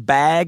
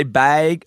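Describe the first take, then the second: First: Said in the usual way. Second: Bag said as "baig"; funny regional bag. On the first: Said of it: "like bag". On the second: Retold or imitated. Showing how Seattle people say it, funny regional bag. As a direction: raise the vowel in bag toward "beg". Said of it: "They say bag funny".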